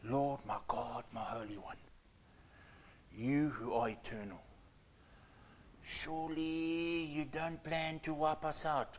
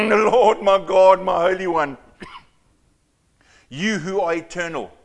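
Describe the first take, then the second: First: Soft, low, whispered prayer; hushed whisper. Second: Booming prayer. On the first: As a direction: breathe it out like a frightened private plea. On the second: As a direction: proclaim it like a formal public prayer. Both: Shown as a demonstration. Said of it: "this is how I think he was speaking".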